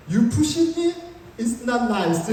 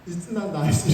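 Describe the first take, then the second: First: A shaky attempt at a tough rebuke; nervous confrontation. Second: Said in the usual way. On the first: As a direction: confront him, voice tight with nerves. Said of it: "너무 긴장하니까". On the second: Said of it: "그런데 나온다는 말이".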